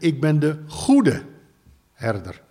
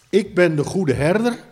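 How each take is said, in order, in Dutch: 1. De klemtoon valt op goede, niet op herder. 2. De klemtoon valt op herder, niet op goede. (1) "eigenlijk moet je zeggen, ... de juiste manier van uitspreken" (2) "Daar staat"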